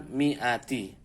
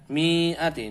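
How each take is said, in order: First: The first vowel is said short. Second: The first vowel is drawn out long. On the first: The speaker calls it right. "Mi ini dibaca pendek" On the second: The speaker calls it wrong. "jangan dipanjangkan"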